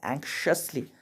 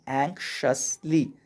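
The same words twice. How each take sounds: First: Said in the usual way. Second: एंक्शसली slowly, split as एंक्-शस-ली; teacher's slow, careful एंक्शसली; syllable-by-syllable pronunciation. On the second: Shown as a demonstration. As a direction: sound out एंक्शसली in separate syllables for learners. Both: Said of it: "इसको पढ़ते हैं".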